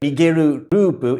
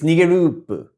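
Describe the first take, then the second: First: Both words are said separately, repeating the syllable. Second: The words blend, with the shared syllable said once. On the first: The speaker calls it wrong. "it doesn't sound in the song like nigeru rupu" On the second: The speaker calls it right. "it's nigerupu"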